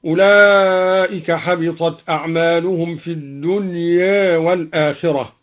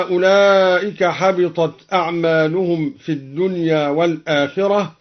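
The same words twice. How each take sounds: First: "الدنيا" ending slightly tilted toward e; taqlil of final alif. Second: Said in the usual way. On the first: Shown as a demonstration. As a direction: recite with "الدنيا" halfway between dunya and dunye. (تقليل ألف "الدنيا" بين الفتح والإمالة) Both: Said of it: "قلل الدنيا أيضًا".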